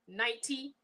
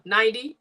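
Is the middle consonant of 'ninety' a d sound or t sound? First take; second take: t sound; d sound. First: The middle consonant is a clear t sound. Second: The middle consonant is a soft d sound. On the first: "I'm not saying ninety" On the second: "with a D"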